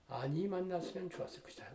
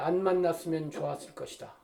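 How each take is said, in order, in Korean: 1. 부정어는 부드럽게 늘어진 두 음절이에요. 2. 부정어는 짧게 끊어지는 한 음절이에요.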